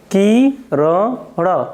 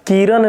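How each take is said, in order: First: किरण drawn out very slowly as "ki - ra - ṇa"; syllable-by-syllable retroflex. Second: किरण said as "kiran", plain dental n at the end; dental final n. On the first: Teacher correcting students' term, किरण slowly split with retroflex ṇa. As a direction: break किरण into slow syllables, ending on a heavy retroflex ण. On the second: Teacher showing students the form to avoid, किरण with plain n. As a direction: end किरण on a simple न sound. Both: Shown as a demonstration. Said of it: "किरण नहीं".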